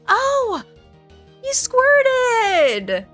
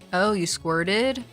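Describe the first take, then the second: First: It sounds bright and excited. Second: It sounds warm and encouraging.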